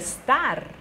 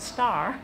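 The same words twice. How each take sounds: First: The word is said with an Italian pronunciation. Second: The word is said with an English pronunciation. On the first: "我念的就是star" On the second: "英文的star"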